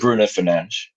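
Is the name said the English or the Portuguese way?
Portuguese. The name is said with Portuguese sounds.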